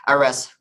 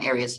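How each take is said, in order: First: "Ares" said the Russian way, uh-RESS, stress last; Russian pronunciation. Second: "Ares" said the English way, AIR-eez, stress first; English pronunciation. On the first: Giving listeners the alternative name, Russian-style "Ares" as uh-RESS. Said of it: "Russian pronunciation". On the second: Correcting self after a blank, English "Ares" as AIR-eez. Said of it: "Russian pronunciation, same thing". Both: Shown as a demonstration.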